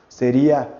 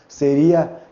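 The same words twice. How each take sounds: Both takes have the same delivery.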